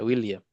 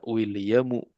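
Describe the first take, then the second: First: The name ends without an added final vowel. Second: The name ends with an added final u vowel. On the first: This is the everyday reading. "biasa William" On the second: This is the reading with full vowel markings. "kalau harokat lengkapnya"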